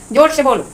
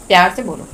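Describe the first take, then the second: First: Higher-pitched, firm order to speak up; raised-voice command. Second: Gentle request. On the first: Teacher demonstrates telling someone to speak up, raised voice. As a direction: call it out a little louder. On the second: Teacher demonstrates asking someone to speak lovingly, gentle. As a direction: ease down and ask gently. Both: Shown as a demonstration.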